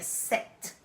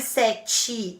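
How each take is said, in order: First: The word ends sharply on the t. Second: A vowel is added after the final t. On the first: The speaker calls it right. "É set" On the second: The speaker calls it wrong. "não é sete igual ao português"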